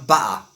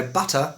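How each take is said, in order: First: "butter" with the T's swallowed; glottal stop. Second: Said in the usual way. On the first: Shown as a demonstration. Teacher showing learners a glottal stop in "butter". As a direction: say "butter" with a catch in the throat for the T. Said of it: "that's called the glottal stop". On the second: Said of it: "the absence of sound".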